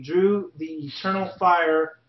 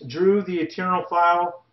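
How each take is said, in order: First: "Fire" said with a final R, as in fire; name fixed to "Fire" with an R ending; corrected name. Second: "File" said with a clear final L, as in file; name read as "File" with an L ending; misread name. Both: Real, not acted. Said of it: "uh, excuse me".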